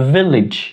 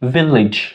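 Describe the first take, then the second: First: The final syllable sounds like 'lij'. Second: The final syllable sounds like 'lij'.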